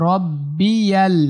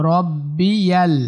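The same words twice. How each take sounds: No difference in how they are said.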